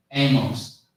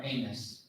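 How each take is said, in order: First: Amos as AY-mohss, full O; optional pronunciation. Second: Amos softly as AY-muss; optional pronunciation. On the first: Telling listeners either is fine, Amos as AY-mohss. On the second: Telling listeners either is fine, Amos softly as AY-muss. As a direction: say Amos quietly with a reduced ending. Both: Shown as a demonstration. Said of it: "however you wanna say it".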